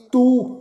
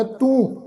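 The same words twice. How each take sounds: First: ਤੂੰ said as plain tu, no nasal; un-nasalised u. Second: ਤੂੰ said with a nasal u. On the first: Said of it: "ਇਸ ਢੰਗ ਨਾਲ ਉਚਾਰਨ ਨਹੀਂ ਕਰਨਾ". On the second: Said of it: "ਟਿੱਪੀ ਸਹਿਤ ਉਚਾਰਨ ਕਰਨਾ". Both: Shown as a demonstration.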